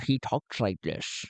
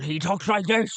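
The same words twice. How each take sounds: First: Lower, sophisticated Connery-like voice; Len Onya. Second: Higher, rambling pirate voice; Madman Gotul. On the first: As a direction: play a cultured Sean Connery type. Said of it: "almost like a Sean Connery kind of thing". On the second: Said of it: "He's very ramble, ramble". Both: Shown as a demonstration.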